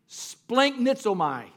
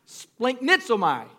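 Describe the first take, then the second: First: Splanchnizomai said slowly, every syllable spelt out; Greek word splanchnizomai. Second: Splanchnizomai sounded out slowly, falling at the end; Greek word splanchnizomai. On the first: Pastor teaching his church a Greek word, slow and deliberate. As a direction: savour splanchnizomai, splan-chni-zo-mai. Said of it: "I just want to say it". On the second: Pastor modelling Splanchnizomai for the church to repeat. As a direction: lead the room through Splanchnizomai slowly. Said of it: "Say it". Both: Shown as a demonstration.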